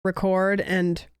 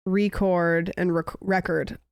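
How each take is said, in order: First: Record with the first syllable stressed, REC-ord. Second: Record with the second syllable stressed, re-CORD. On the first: Showing friends the noun record, stress on REC. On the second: Showing friends the verb record, stress on CORD. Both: Shown as a demonstration. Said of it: "'Cause read and read is, like, different".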